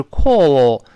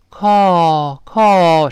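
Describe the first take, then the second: First: Slow British "call" with rounded vowel; drawn-out British demo of "call"; British pronunciation. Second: American "call", open like a sigh; long, louder American "call"; American pronunciation. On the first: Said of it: "英式发音是call". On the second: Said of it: "美式发音呢". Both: Shown as a demonstration.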